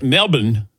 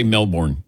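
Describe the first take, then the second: First: Melbourne as MEL-bun; MELBOURNE with the second syllable swallowed; local pronunciation. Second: Melbourne as MEL-born; MELBOURNE with a full "born" ending; usual American pronunciation. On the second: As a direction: say Melbourne as spelled, r and all. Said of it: "I would just say Melbourne". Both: Shown as a demonstration.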